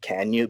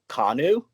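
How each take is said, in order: First: The name is said like the words 'can you'. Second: The name is said in its original form. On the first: This is the owner's own preferred pronunciation. The speaker calls it wrong. "I pronounce it wrong ... I'm just gonna make it Can You" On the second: This is the name's official pronunciation. The speaker calls it right. "It's actually pronounced Kanu, but that's so boring"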